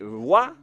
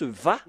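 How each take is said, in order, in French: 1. La syllabe commence par un son W. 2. La syllabe commence par un son V. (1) "Wa, la prononciation, comme euh, avec les Anglais" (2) "la bonne prononciation, c'est Va"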